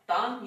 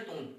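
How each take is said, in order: First: The vowel is an open 'aa' sound. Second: The vowel is a rounded 'oo' sound. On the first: This is the form as it is written. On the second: This is how it is actually pronounced.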